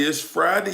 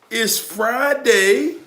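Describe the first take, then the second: First: Said in the usual way. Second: "Friday" stretched very slow, pitched high and rising; drawn-out hype. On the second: Real, not acted. Hyping up his viewers, slow and high. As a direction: sing out "Fri-day" long and high.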